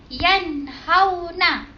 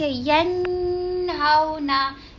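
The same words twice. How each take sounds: First: The n sound is clear, without nasalization. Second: The n sound is nasalized and prolonged. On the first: The speaker calls it right. "Cara yang betul ialah yanhauna" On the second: The speaker calls it wrong. "Tak boleh baca yanhauna. Salah"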